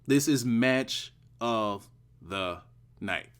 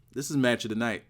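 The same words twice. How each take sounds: First: "match of the night" slowed, word by word; deliberate, spaced-out "This is match of the night"; emphatic slow repeat. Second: Said in the usual way. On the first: Real, not acted. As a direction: drive the verdict home with pauses before "night".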